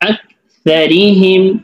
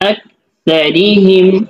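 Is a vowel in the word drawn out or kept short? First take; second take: short; short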